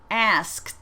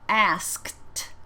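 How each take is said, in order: First: "Asked" repeated a bit louder, ending in T; second clear model of "Asked"; model word. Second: "Asked" said clearly with a crisp T ending; teacher says "Asked" for students to repeat; model word. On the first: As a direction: say "Asked" for the class to echo. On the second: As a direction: clean T on "Asked". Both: Shown as a demonstration. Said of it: "Say them after me".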